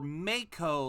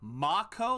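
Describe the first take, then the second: First: The first syllable sounds like 'may'. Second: The first syllable sounds like 'mah'. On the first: "like M A Y" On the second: "like M A H"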